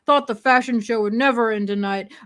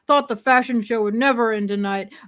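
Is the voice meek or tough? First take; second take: tough; tough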